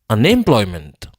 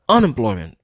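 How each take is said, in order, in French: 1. L'accent est sur la syllabe em. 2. L'accent est sur la syllabe un. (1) "Si m'ta prononcer em nan plus fort que tout" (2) "Si m'ta prononcer on nan plus fort que tout"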